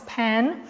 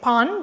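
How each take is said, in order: First: The name is said with an English pronunciation. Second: The name is said with an Afrikaans pronunciation. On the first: "but I think now it's Pan" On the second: "In Afrikaans, I would have said Pan"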